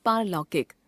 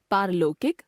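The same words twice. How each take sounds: First: Said in the usual way. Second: पारलौकिक as पारलोकिक, closed o; wrong pronunciation. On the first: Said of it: "शुद्ध". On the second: Shown as a demonstration. Teacher showing a common error, पारलौकिक with ओ sound. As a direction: narrow लौ to लो in पारलौकिक. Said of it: "अशुद्ध".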